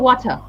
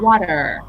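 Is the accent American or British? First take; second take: British; American. First: It has a British accent. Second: It has an American accent. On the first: "Whereas a British will probably say water" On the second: "So an American would say this is water"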